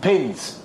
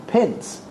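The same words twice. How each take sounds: First: Said in the usual way. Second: Higher, puzzled echo of PINS; questioning echo. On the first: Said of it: "And she says". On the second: Retold or imitated. Captors query her last request, puzzled. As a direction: query the word PINS in disbelief. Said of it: "We're asking".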